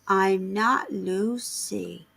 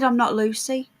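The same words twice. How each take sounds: First: It is said slowly and drawn out. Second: It is said at a normal speed.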